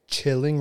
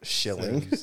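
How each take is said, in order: First: The word begins with a 'ch' sound. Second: The word begins with a 'sh' sound. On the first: The speaker calls it right. "now that I know how to pronounce it correct" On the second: The speaker calls it wrong. "I said it the most Mexican way you could ever say it"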